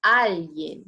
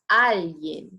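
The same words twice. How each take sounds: First: The stress falls where Spanish puts it. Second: The same.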